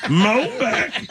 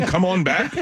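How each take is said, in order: First: High-pitched mock redneck twang; hammed-up redneck voice; redneck accent. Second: Said in the usual way. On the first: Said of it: "She's a redneck". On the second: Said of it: "What are you saying?".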